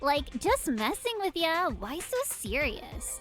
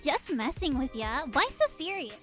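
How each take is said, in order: First: It is said in a Valley Girl voice. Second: It is said in a plain voice.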